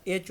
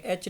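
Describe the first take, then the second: First: एच said the correct English way; एच pronounced correctly; correct pronunciation. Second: एच said the wrong local way; एच as learners wrongly say it; wrong pronunciation. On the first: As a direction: model the right एच. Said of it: "एच होता है". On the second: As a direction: show the mistake on एच. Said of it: "एच नहीं होता". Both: Shown as a demonstration.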